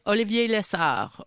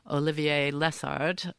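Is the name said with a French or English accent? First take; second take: French; English. First: It is said with a French accent. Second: It is said with an English accent.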